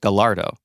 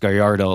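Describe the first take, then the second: First: The double L is said like an L sound. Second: The double L is said like a Y sound. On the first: "the test Italian test driver actually pronounced it" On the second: "like a like a Y instead of the double L"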